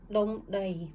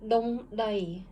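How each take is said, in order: First: Said in the usual way. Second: Dong dai, each syllable said distinctly; read slowly by syllable. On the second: Shown as a demonstration. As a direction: model Dong dai for the class to repeat. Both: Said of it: "And read".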